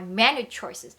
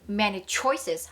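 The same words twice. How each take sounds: First: The stress falls on the word menu. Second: The stress falls on the word choices.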